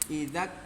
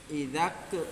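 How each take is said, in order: First: The final k ends with a slight hiss of air. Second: The final k bounces with an echoing vowel. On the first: The speaker calls it right. "kedengarannya sedikit, jangan terlalu" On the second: The speaker calls it wrong. "Kalau kol-kolah begini"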